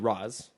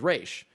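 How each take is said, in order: First: The name sounds like 'Roz' with a short vowel. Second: The name sounds like 'Raish' with an 'ay' vowel. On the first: This follows the Arabic pronunciation. "the Arabic pronunciation would be Roz" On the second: This follows the Hebrew pronunciation. "the Hebrew pronunciation, which is Raish"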